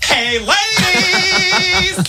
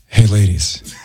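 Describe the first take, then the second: First: It is said in a funny, comic voice. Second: It is said in a hot, breathy voice.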